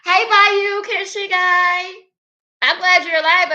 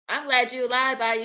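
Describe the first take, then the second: First: High, loud, thrilled hello; excited greeting. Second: Said in the usual way. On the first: Real, not acted. Streamer greeting a returning viewer in chat, loud and excited. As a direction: shout a joyful welcome, stretching the name out slowly.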